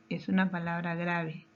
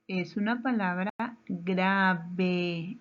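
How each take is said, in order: First: Said in the usual way. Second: Slow, with "grave" drawn out in two beats; slow, spelled-out answer. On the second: Shown as a demonstration. Teacher giving the answer to the class, slow and deliberate. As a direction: stretch "grave" into "gra-ve" for pupils.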